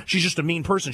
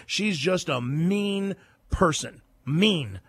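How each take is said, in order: First: Said in the usual way. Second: Slow, deliberate emphasis. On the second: Real, not acted. Repeated insult, slowed for weight.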